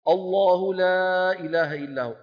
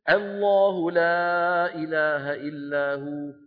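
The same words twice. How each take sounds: First: The opening glottal stop is heavy and velarized. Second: The opening glottal stop is light, not velarized. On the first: The speaker calls it wrong. "يبدأ بهمزة مفخمة لأن بعدها لام مفخمة" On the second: The speaker calls it right. "همزة مرققة لام مفخمة... بدون تكلف"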